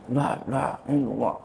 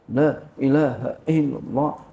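First: The words are slurred and unclearly articulated. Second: The words are clearly and distinctly articulated. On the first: The speaker calls it wrong. "Jangan la ilaha illallah, la ilaha illallah. Nggak jelas" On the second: The speaker calls it right. "Ya harus harus jelas"

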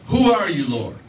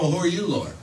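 First: It sounds trembling and frightened. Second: It sounds relaxed and casual.

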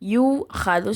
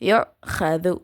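First: The first vowel is long with no glottal catch. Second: A glottal catch closes the first syllable. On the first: The speaker calls it wrong. "யூ ஹது சொல்லிடக்கூடாது" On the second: The speaker calls it right. "அந்த ஹம்சாவை சொல்லணும்"

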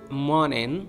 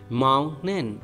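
First: The T is stopped before the N. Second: The T is stopped before the N.

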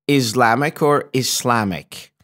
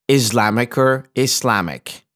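No difference in how they are said.

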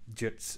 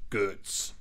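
First: The name is said with a Latvian-sounding accent. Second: The name is said with an American-sounding accent. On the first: The speaker calls it right. "much more, well, fitting" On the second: The speaker calls it wrong. "it pronounced it very almost American"

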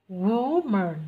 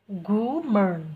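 The two takes are said the same way.

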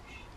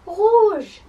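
First: It is said very quietly. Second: It is said very loudly.

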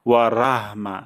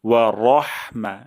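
First: The r is pronounced light and thin. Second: The r is pronounced heavy and thick. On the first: The speaker calls it wrong. "ভুলটি হলো" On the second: The speaker calls it right. "র মোটা করে যেন রা না হয়ে যায়"

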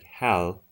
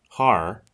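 First: The final consonant is a clear English L. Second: The final consonant is an English R. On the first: "if you say L, it's like Hal, Hal, but that's not how you say it" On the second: "And if you say it's R, har, that's not it either"

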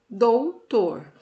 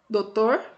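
First: The word is said with every written sound. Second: The word is said without the U sound. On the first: "a maneira correta, né, da nossa escrita" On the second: "sem o U"

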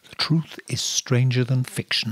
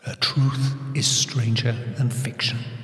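First: The voice is dry, without any echo. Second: The voice has a spooky echo effect.

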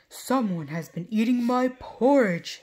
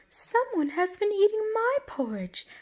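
First: It is said in a big, deep voice. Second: It is said in a medium-sized voice.

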